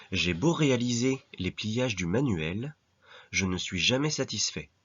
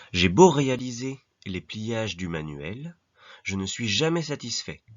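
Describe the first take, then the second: The two takes are said the same way.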